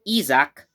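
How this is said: The name is said with Japanese pronunciation.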